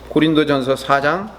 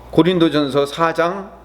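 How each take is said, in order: Both takes have the same delivery.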